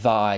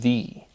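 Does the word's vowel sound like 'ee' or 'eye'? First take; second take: eye; ee. First: The vowel sounds like 'eye'. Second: The vowel sounds like 'ee'. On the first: The speaker calls it wrong. "Thy is not thy" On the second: The speaker calls it right. "it is thee, like T H E E"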